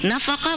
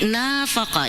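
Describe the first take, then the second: First: The first vowel is short. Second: The first vowel is lengthened. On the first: It means spending. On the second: It means acting hypocritically.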